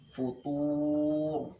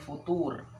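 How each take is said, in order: First: The r sound is fully thick and heavy. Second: The r sound is only half thick. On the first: The speaker calls it right. "di wakaf menjadi tebal" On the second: The speaker calls it wrong. "Jadi bukan futur. Setengah-setengah"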